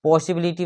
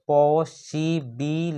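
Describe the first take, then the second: First: Said in the usual way. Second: possibility slowly, पॉ - सि - बि - लि - टी; five separate beats on possibility; split into syllables. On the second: Shown as a demonstration. Teacher counting syllables for students, possibility split into five. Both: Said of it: "यहाँ पे five syllable है".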